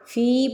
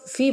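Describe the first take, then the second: First: فی with the ee held long; the right فی, stretched; long vowel. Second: فی said short, wrong way; the clipped فی to avoid; short vowel. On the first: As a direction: draw out فی. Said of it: "فی پڑھنا ہے". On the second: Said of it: "فی نہیں پڑھنا". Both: Shown as a demonstration.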